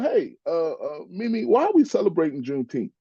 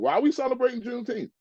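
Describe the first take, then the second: First: It is asked in a friendly, curious tone. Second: It is asked in a hostile, confrontational tone.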